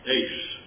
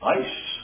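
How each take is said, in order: First: The vowel sounds like the one in 'ace'. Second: The vowel sounds like the one in 'ice'. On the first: This is how the ancient text is read. "it's pronounced as a long A" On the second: This reading was chosen on purpose for a reason. "pronounced this as ice, and he knew that was incorrect"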